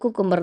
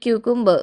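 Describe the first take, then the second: First: The word begins with a plain 'koo' sound. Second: The word begins with a 'kyoo' sound. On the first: This is the everyday local way of saying it. "നമ്മൾ കുക്കുംബർ എന്ന് പറയും" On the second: This is the more standard way of saying it. "ഇത്തിരി കുറച്ചും കൂടി സ്റ്റാൻഡേർഡിൽ ക്യൂക്കുംബർ എന്ന് പറയും"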